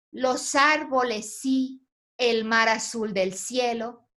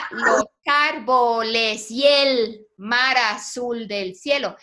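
First: Slow reading, "Los árboles sí" held before "el mar"; marking the verse pause. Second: Slow syllables, "y el" fused into one after "árboles"; joined with synalepha. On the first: Teacher correcting how a student read it, marking the pause. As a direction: break the line after "sí", then "el mar azul del cielo". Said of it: "debiste de marcar esa pausa". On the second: Teacher showing students the synalepha, both verses joined syllable by syllable. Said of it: "Ahí tendríamos una sinalefa". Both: Shown as a demonstration.

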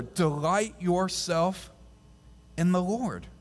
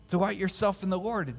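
First: Slowly drawn out, word by word; slow scripture read. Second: Said in the usual way. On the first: Shown as a demonstration. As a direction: stretch it out slowly and deliberately. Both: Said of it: "Verse four".

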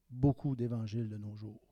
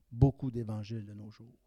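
No difference in how they are said.

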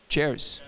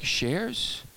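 First: "Chairs" with a ch at the start, falling; corrected "Chairs". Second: "Shares" with a soft sh, as a rising question; puzzled mispronounced "Shares". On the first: Shown as a demonstration. Speaker answering how to say it, "Chairs" with a ch. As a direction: say "Chairs" with ch, not sh. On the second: Retold or imitated. Phil questioning the speaker's word, puzzled rising "Shares?". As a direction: ask "Shares?" with sh in place of ch. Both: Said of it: "how do you say it".

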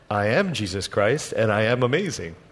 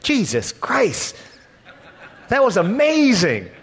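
First: Lightly voiced Jesus answering his disciples; calm Jesus reply. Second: Amazed exclamation. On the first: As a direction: answer calmly, unimpressed by their awe. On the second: Retold or imitated. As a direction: blurt it out, awestruck and laughing. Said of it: "they would almost have sworn by saying".

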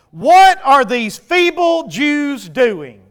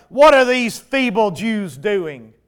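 First: Slow, loud mocking yell; yelled taunt. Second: Slow scornful reading of the jeer; read taunt. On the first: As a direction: drag out the jeer at the crowd. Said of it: "Yelling it out". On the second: Acted. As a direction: let the sneer show but keep it near the reading voice. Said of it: "he said in the presence of".

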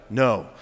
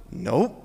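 First: Low, toneless no; monotone. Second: Light, low nope; joyful denial. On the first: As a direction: drop to a robotic monotone. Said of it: "the monotone, auto-tune voice". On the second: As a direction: toss off a cheerful nope. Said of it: "this is what I heard". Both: Acted.

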